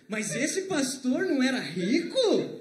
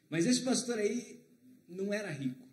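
First: It is said with question intonation. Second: It is said as a flat statement. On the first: Wasn't the pastor supposed to be rich? The speaker calls it right. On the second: The pastor was not rich. The speaker calls it wrong.

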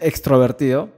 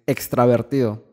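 First: The vowel after 'extr' is an 'o' sound. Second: The vowel after 'extr' is an 'a' sound. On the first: The speaker calls it wrong. "Está mal dicha" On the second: The speaker calls it right. "Extravertido se dice"

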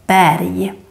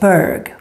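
First: The word ends in a y-like sound. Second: The word ends in a hard g sound. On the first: The speaker calls it right. "you say more like a Y sound" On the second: The speaker calls it wrong. "we don't pronounce it like Berg"

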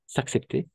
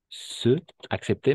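First: The vowel of 'se' is dropped and linked. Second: The vowel of 'se' is fully pronounced. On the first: "on va faire l'élision" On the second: "Se accepter, mais parce qu'il y a ces deux voyelles ensemble"

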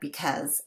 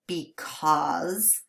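First: The second syllable has a short, reduced 'uh' vowel. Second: The second syllable has a full, clear 'aw' vowel. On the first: "But when we say it quickly, it just sounds like" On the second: "If you say the word properly"

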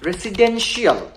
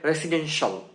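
First: The ending is said as two syllables. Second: The ending is said as one syllable. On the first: The speaker calls it wrong. "এটা কিন্তু রেসিডেন্সিয়াল হবে না" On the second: The speaker calls it right. "এটা হবে রেসিডেন্সিয়াল"

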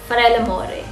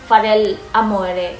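First: There is no pause after the first part. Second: There is a pause after the first part. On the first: The speaker calls it right. "ang tamang pronunciation yan is Farella More" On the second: The speaker calls it wrong. "I pronounce it Farel Amore. So, may pause"

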